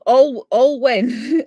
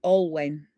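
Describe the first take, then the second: First: Alwen said slowly and louder as AWL-wen; a slow, loud, deliberate AWL-wen for Alwen; careful pronunciation. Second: Alwen said AWL-wen, ending like when; AWL-wen, second part rhymes with when; corrected name. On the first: Showing the viewer she can say his name, Alwen said slowly and louder. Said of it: "got me to pronounce his first name". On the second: After learning the name, Alwen said AWL-wen. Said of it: "sounds like the word when". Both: Shown as a demonstration.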